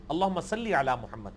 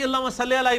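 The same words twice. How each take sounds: First: "صلی" with a clear long -lī ending; correct classical Arabic. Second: "صلی" ending in -le, not -lī; colloquial mispronunciation. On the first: Teacher showing the proper durood, correct pronunciation of صلی as sal-lī. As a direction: recite lower, saying "صلی" as sal-lī. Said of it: "معروف عربی میں یہ صلی لفظ ہے". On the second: Mimicking how reciters say the durood, mispronouncing صلی as sal-le. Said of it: "یہ غلط پڑھتے ہیں". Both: Shown as a demonstration.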